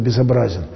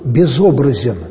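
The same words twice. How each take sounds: First: The stress is on the third syllable. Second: The stress is on the second syllable. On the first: Something has a form, but an ugly one. "Можно ударение поставить и сказать безобразен" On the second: Something has no image or form. "Бог безобразен, говорит богословие"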